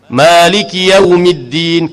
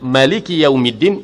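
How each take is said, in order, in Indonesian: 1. Vokal pertama dalam Maliki dibaca panjang. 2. Vokal pertama dalam Maliki pendek. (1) "kita ada mat lah, dua harakat di situ" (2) "bidunil maddi, tanpa mat asli di situ"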